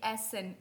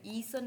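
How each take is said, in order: First: "एसएन" begun with an open e, ESS-en; German "एसएन", opening on eh; correct E sound. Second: "ईसन" begun with a long ee; mispronounced "ईसन", ee instead of eh; wrong EE sound. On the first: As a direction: say "एसएन" with e as in bed. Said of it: "वो ए की sound करेगा". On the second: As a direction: say "ईसन" as EE-sun. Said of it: "ईसन नहीं है". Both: Shown as a demonstration.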